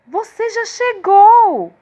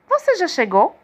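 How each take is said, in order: First: It is said with surprise. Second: It is said as a question.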